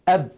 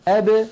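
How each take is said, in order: First: The final b stays closed without a release. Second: The final b is released with a slight bounce. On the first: The speaker calls it wrong. "هكذا بالتصادم" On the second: The speaker calls it right. "يخرجونها بالتباعد بين طرفي عضو النطق"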